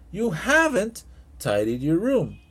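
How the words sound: "Haven't" is said with strong emphatic stress.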